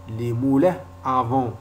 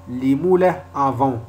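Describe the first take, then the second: No difference in how they are said.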